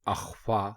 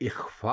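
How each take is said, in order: First: The word begins with an 'a' vowel. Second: The word begins with an 'i' vowel. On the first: The speaker calls it wrong. "अलिफ के ऊपर जबर लगाकर इसको अगर कहेंगे अख्फा तो ये गलत होगा" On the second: The speaker calls it right. "अलिफ के नीचे जेर लगाकर बोलते ... इख्फा दुरुस्त है"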